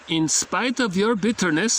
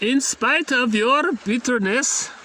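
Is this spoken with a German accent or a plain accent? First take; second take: plain; German. First: It is spoken in the speaker's ordinary accent. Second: It is spoken in a put-on German accent.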